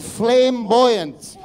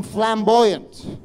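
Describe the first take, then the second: First: "flamboyant" drawn out slowly as "flame" and "buoyant"; split into flame-buoyant. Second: Said in the usual way. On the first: Acted. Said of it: "Flame like your head literally". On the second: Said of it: "Even that was misquote".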